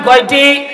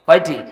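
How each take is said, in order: First: High, loud demand for an answer; louder crowd prompt. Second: Said in the usual way. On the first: Real, not acted. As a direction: call it out to the whole crowd. (উঁচু গলায় জোরে উত্তর চাওয়া) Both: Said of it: "জোরে বলেন".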